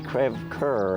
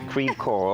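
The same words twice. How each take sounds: First: The name is pronounced in a French way. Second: The name is pronounced in an English way.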